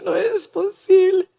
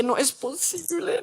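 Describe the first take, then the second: First: Tearful, breaking disbelief; near tears. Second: Hushed disbelief. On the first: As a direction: let the voice crack on posible. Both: Retold or imitated. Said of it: "Yo dije".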